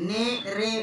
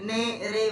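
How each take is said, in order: No difference in how they are said.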